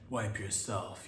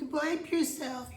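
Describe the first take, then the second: First: It is said in a deep, exaggerated masculine voice. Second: It is said in a higher, put-on feminine voice. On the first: "I'm using an ultra, you know, uber masculine voice" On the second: "chicks can use it too"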